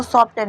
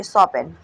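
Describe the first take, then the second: First: सॉफ्टन with the t clearly pronounced; wrong way, t sounded. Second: सॉपन said with the t left silent. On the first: Teacher showing students the wrong reading, t sounded. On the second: Teacher giving students the correct reading, silent t. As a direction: say सॉपन with no t sound at all. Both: Shown as a demonstration. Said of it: "इसको सॉफ्टन नहीं पढ़ेंगे".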